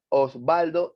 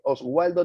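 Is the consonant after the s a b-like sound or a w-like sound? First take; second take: b-like; w-like. First: The consonant after the s sounds like b. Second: The consonant after the s sounds like w. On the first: The speaker calls it right. "En castellano es Osvaldo" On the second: The speaker calls it wrong. "ahí no dice Oswaldo"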